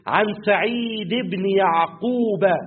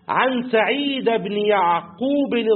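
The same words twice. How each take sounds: First: Said ends in i, Yaqub ends in a. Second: The case endings are not the standard ones. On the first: The speaker calls it right. "سعيد دي هتبقى مجروره بالكسره، يعقوب هتبقى بالفتحه" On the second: The speaker calls it wrong. "انا نطقتها في الاول غلط"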